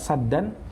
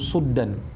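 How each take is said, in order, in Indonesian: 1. Vokal pertama adalah bunyi a terbuka. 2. Vokal pertama adalah bunyi u bulat. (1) "Itu ya bacaan kita saddan" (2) "dibaca dengan mendommah huruf sinnya yaitu suddan"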